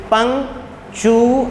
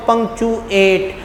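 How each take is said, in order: First: punctuate said slowly, syllable by syllable, पंक - चू - एट; split into syllables. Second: Said in the usual way. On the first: Shown as a demonstration. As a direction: break punctuate into its three syllables, rising at the end. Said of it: "अब पंक जो है ... एक movement में आई है". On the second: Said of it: "जैसे मैं कहता हूँ".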